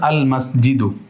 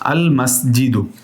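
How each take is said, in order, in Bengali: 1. শব্দটি একটি স্বরধ্বনি দিয়ে শেষ হয়। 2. শব্দটি একটি স্বরধ্বনি দিয়ে শেষ হয়।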